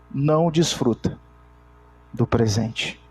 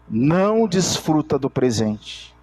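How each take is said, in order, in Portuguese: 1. É falada muito devagar, de propósito. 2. É falada em ritmo normal.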